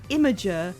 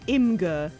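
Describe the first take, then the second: First: The name sounds like 'image' plus 'er'. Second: The name sounds like 'im' plus 'gur'. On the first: This is how the name ought to be said. "It should be Imager" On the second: This is how the speaker actually says it. "but I say Imgur"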